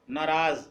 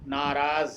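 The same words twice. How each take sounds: First: नाराज said as the wrong form. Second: नाराज said as the correct form. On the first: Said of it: "गलत है". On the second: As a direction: say नाराज the right way, clearly. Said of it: "सही क्या होगा". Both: Shown as a demonstration.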